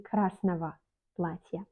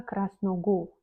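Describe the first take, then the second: First: "красного" ending in va, krasnava; correct spoken pronunciation. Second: "красного" ending in a hard go; wrong, as-written pronunciation. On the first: Teacher showing what she does say, spoken pronunciation. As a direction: say "красного платья" with v for the written g. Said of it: "Je dis красного платья". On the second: Teacher showing what she does not say, as-written pronunciation. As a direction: say "красного" with g and full o, krasnogo. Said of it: "Je ne dis pas". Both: Shown as a demonstration.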